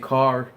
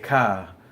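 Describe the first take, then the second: First: It is said in the speaker's plain accent. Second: It is said in a stretched Boston accent. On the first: "like we say car" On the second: "over there they say car"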